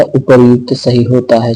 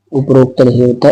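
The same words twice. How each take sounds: First: उपर्युक्त said clearly as upar-yukt; correct form. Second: उपरोक्त said as the wrong form, uparokt. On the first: (सही शब्द उपर्युक्त) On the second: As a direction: point out उपरोक्त as the mistake. (गलत शब्द उपरोक्त) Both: Shown as a demonstration.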